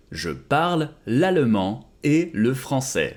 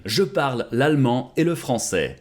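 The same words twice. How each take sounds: First: Slower, each word laid out; slow it down for learners; slow model repeat. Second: Said in the usual way. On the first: Shown as a demonstration. Teacher modelling French for students, slowly. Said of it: "slow repeat of model". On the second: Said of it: "repeated model sentence".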